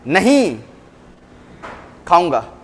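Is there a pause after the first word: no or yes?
yes. There is a pause after the first word. The person will certainly eat. "Positivity की, नहीं मैं जरूर खाऊंगा"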